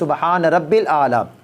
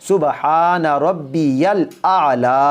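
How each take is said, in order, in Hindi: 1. बीच वाला शब्द छोटा होकर 'rabbil' बोला जाता है। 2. बीच वाला शब्द पूरा 'rabbiyal' बोला जाता है। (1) "यहाँ पर भी बाज़ लोग गलती करते हैं" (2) "सही लफ्ज़ ये है"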